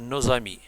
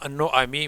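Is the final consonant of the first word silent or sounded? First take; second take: sounded; silent. First: The final s of nos links as z. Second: The final s of nos is silent. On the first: The speaker calls it right. "mais on dit; la liaison est obligatoire" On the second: The speaker calls it wrong. "On ne dit pas"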